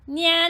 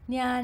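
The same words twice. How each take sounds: First: The voice has a bright, piercing twang. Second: The voice has no bright twang. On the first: "And with twang" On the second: "without and then with twang"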